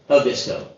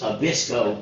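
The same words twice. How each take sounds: First: The stress falls on the first syllable. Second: The stress falls on a later syllable. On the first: The speaker calls it right. "put the accent on their first syllable" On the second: The speaker calls it wrong. "I thought it was"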